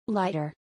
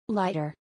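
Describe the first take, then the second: Both takes have the same delivery.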